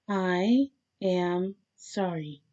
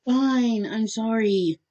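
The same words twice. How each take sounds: First: Very slow, word-by-word apology; deliberate apology. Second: Raised-pitch, exasperated give-in; grudging apology. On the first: Captive told to sound like they mean it, deliberate. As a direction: separate each word as if meaning it. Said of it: "Make it sound like you mean it". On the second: Captive giving in to be let go, grudging apology. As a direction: toss off the sorry at normal pace. First apology, told it sounds insincere. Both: A narrator's reading.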